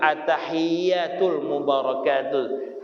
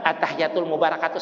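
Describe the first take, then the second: First: Each sound is articulated carefully and fully. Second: The words are run together hurriedly. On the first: The speaker calls it right. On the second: The speaker calls it wrong.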